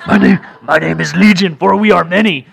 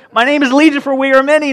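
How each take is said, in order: First: Hammed-up possessed-man voice, lower and loud; mock-scary demonic voice; horror-movie demon. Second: Said in the usual way. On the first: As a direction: play a movie demon for laughs. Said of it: "like, horror movie".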